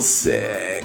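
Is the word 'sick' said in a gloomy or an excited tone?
gloomy. The word sounds low and gloomy. The person feels ill. "you can tell that I mean sick in a different way just by the tone"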